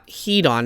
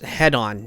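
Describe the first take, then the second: First: The first syllable has a long vowel, like heed. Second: The first syllable has a short vowel, like head. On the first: The speaker calls it wrong. "not heat on, as I was saying in my last video" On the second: The speaker calls it right. "it's head on"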